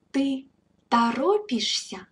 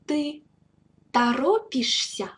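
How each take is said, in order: First: "Ты торопишься" said in one smooth run, stress on "торопишься" and falling at the end; now join "Ты торопишься" into one flowing question; whole phrase model. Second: "Ты" set apart, then "торопишься" said on its own with a pause between; word by word model. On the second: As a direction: break "Ты торопишься" into its two words for the learner. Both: Shown as a demonstration. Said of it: "Please repeat after me".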